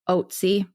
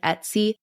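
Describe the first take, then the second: First: The name starts with an 'oh' vowel. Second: The name starts with an 'eh' vowel. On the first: The speaker calls it right. "but it's Otzi" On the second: The speaker calls it wrong. "Some pronounce it like almost like Etsy"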